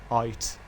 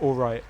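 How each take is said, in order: First: "aight" said as one syllable, AYT, the "l" and "r" dropped; clipped British aight. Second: Said in the usual way. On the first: Shown as a demonstration. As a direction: squash "all right" into "aight". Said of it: "That's another British thing". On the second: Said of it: "instead of".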